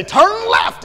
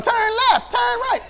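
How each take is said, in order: First: High, loud robotic turn call; loud GPS voice. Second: High, shouted mimic of the GPS; child copying GPS. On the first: Retold or imitated. Imitating the car's GPS blaring at them. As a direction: bark it like a blaring navigation voice. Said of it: "and it's real loud". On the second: Daughter mimicking the GPS from the back seat. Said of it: "Wisdom started going".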